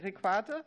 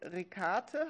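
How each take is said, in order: First: The middle consonant is a kv sound. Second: The middle consonant is a plain k sound. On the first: The speaker calls it right. "Mit Qua, okay" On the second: The speaker calls it wrong. "habe ich es richtig ausgesprochen?"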